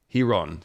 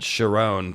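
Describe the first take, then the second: First: The name begins with a soft H sound. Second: The name begins with a hard K sound. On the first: The speaker calls it right. "says it's Hiron. ... So it's it's actually a silent" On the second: The speaker calls it wrong. "I totally butchered that"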